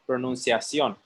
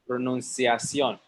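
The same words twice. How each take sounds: First: The middle consonant sounds like an 's'. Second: The middle consonant sounds like an 's'.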